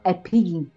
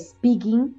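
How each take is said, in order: First: An extra vowel sound comes before the s. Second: The word starts directly with the s sound. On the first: The speaker calls it wrong. "decimos speaking" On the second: The speaker calls it right. "En vez de decir speaking"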